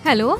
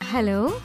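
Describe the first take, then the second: First: It is said a little louder. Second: It is said softly and seductively.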